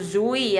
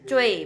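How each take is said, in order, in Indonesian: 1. Kata ini diawali dengan bunyi z. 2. Kata ini diawali dengan bunyi seperti ch. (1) "bukan zui ya" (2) "pinyinnya dibaca cuy"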